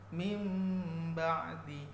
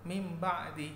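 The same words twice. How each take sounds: First: The nasal sound is held long before moving on. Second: The nasal sound is rushed and cut short. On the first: The speaker calls it right. "harus ditahan" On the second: The speaker calls it wrong. "tidak bisa tuh mim ba'di, tidak boleh"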